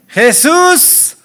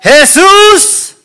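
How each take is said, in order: First: It is said at a normal volume. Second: It is shouted loudly.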